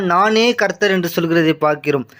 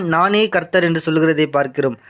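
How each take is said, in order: The two takes are said the same way.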